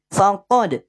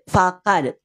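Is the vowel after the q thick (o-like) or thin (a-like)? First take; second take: thick; thin. First: The vowel is a thick, rounded o-like sound. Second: The vowel is a thin, open a sound. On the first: The speaker calls it right. "Karena pangkal lidahnya naik. Bunyinya jadi tebal" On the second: The speaker calls it wrong. "Kenapa nggak dibaca fakad?"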